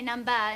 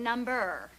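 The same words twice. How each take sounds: First: The final R sound is dropped. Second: The final R sound is pronounced. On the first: The speaker calls it wrong. "You don't pronounce your E Rs. You say number" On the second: The speaker calls it right. "instead of number"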